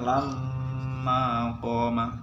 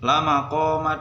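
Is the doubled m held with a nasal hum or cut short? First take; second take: held; short. First: The m is held with a nasal hum. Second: The m is short with no nasal hum. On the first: The speaker calls it right. "harusnya kan baca dengung" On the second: The speaker calls it wrong. "dia bacanya kan gitu"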